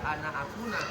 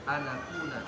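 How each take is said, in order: First: A glottal stop separates the two words. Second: The words run together with no glottal stop. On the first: The speaker calls it wrong. "kalau kita lihatnya hanya di mushaf ya at-taisir ya ana akuna" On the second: The speaker calls it right. "Yang betul anakuna"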